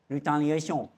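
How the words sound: It is said in a French accent.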